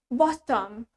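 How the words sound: It is said in a British accent. "In British English, it's bottom"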